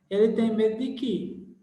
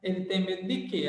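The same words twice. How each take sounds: First: "que" said weak like "ki", the wrong way. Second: "quê" said as a stressed "kê", quickly; correct "quê". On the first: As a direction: show the mistake: "que" like "ki". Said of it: "Não, não". (jeito errado, "que" como "ki") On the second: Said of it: "só dá pra ler como que mesmo". ("quê" tônico, do jeito certo) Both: Shown as a demonstration.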